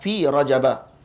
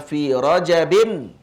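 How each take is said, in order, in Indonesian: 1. Kata itu berakhir dengan vokal biasa, tanpa n. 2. Kata itu berakhir dengan bunyi n tambahan. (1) "mereka takdirkan tu sebagai apa ni, mamnu' min as-sarf" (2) "Maksudnya dibaca dengan tanwin"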